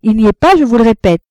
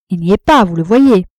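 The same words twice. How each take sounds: First: Higher, louder, emphatic denial; insistent rebuff. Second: Firm, louder dismissal; curt rebuff. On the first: Wife repeating to her rival he is out, insistent. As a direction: insist on it, raised and firm. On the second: Wife telling her rival Arnoux is out, firmly dismissive. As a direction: state it firmly, as self-evident. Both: A narrator's reading.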